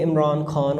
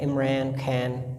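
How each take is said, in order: First: It is said in a British accent. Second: It is said in an American accent. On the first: "तो British में इमरान खान होता है" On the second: "वो American accent उनका एन होता है"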